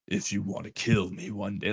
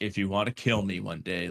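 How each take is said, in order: First: It sounds sinister and evil. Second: It sounds annoyed and matter-of-fact.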